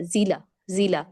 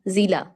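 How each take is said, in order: First: जिला with a brief one-beat ला; जिला said twice, ending cut short. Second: जिला with the final आ dragged out; over-lengthen the ला of जिला as a mistake; जिला, stretched ending shown as wrong; wrong long ending. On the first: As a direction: keep the last vowel of जिला short. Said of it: "तो गलत sound है". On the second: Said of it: "जिला पढ़ी तो गलत sound है". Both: Shown as a demonstration.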